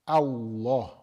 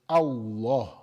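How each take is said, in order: First: The L is pronounced heavy and full. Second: The same.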